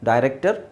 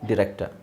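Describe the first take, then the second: First: The first syllable sounds like 'die'. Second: The first syllable sounds like 'dih'. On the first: "ಡೈರೆಕ್ಟರ್ ಅಂತನಾದರೂ ಹೇಳ್ಬೋದು" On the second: "ಡಿರೆಕ್ಟರ್ ಅಂತನಾದರೂ ಹೇಳ್ಬೋದು"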